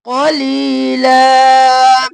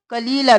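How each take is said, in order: First: कलीला slow, heavy क and long ली; correct recitation. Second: कलीला said quickly with a light क; wrong reading. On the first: Teacher reciting the correct form for students. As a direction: chant कलीला slowly, drawing out ली. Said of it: "और ली को खींचेंगे". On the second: Teacher pointing out the mistake to students. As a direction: rush कलीला, final vowel unstretched. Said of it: "कलीला नहीं करेंगे". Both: Shown as a demonstration.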